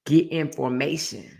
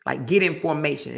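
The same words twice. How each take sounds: First: Slow, lightly imitating a singer; a light hint of a singer; singer impression. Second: Said in the usual way. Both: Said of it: "exactly like how she said".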